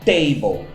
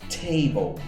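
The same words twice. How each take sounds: First: The t is hard with no breath. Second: The t is breathy with a slight hiss. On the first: The speaker calls it wrong. "E não table" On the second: The speaker calls it right. "quase como se tivesse um S aqui no meio"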